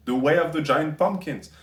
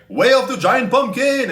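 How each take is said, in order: First: Said in the usual way. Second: Shouted like an anime special attack; overacted anime dub. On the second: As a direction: yell it out like a hero's power move. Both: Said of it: "sound like anime character special attacks".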